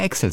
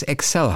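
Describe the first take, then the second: First: Excel stressed on EX; usual German stress. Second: Excel stressed on CEL; correct second-syllable stress. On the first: Podcaster admits his everyday form, EX-el. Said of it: "würde ich immer Excel sagen". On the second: Podcaster grants the correct form, ek-SELL. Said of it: "dass es Excel heißt". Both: Shown as a demonstration.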